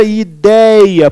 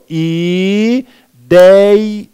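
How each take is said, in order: First: Said in the usual way. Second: "Idei-" drawn out syllable by syllable; syllables separated. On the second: Shown as a demonstration. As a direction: split "Idei-" into long, held syllables. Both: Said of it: "vamos separar pra ficar melhor".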